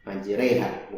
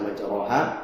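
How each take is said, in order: First: The vowel after r leans fully to e. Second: The vowel after r is a plain a. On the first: The speaker calls it right. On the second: The speaker calls it wrong. "bukan dibaca majroha"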